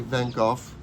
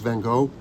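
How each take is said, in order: First: The name is pronounced the British way. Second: The name is pronounced the American way. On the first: "in London they say Van Gogh" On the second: "In America, it's Van Gogh"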